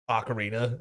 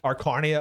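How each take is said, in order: First: The word is said with its usual vowels. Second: The word is said with altered, garbled vowels. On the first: This is the ordinary way to say it. The speaker calls it right. "if you want to get all normal about it" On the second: This is the joking way they used to say it. The speaker calls it wrong. "how did we mispronounce the instrument all the time?"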